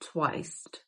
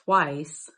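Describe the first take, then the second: First: It is said in old Appalachian pronunciation. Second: It is said in standard pronunciation.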